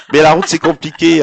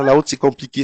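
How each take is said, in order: First: Laughing. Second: Said in the usual way. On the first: Real, not acted. Laughs at the road joke.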